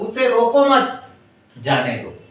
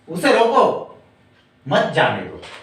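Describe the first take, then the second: First: The pause falls right after the word mat. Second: The pause falls right after the word roko. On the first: The person should be let go. "यहां कहा गया है कि उसने रोकना नहीं है" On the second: The person should be stopped. "यानी कि किसी को यहां पर रोकने के लिए कहा गया है"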